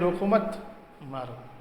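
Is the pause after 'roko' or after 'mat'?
after mat. The pause comes after 'mat', meaning keep hitting.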